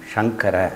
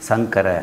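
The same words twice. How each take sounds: First: It begins with a sh sound. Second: It begins with a plain s sound. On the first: The speaker calls it right. "அப்படின்னு சொல்லணும்" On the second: The speaker calls it wrong. "அப்படின்லாம் சொல்லக்கூடாது"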